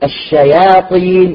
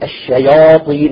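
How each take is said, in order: First: The long a-vowel is thin and light. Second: The long a-vowel is heavy and dark. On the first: The speaker calls it right. "بدلا من أن يقول الشياطين" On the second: The speaker calls it wrong. "يقول الشياطين"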